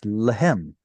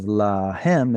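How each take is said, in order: First: The first vowel is shortened and reduced. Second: The first vowel is given its full length. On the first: The speaker calls it wrong. "You're reducing them" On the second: The speaker calls it right. "Instead of lahem"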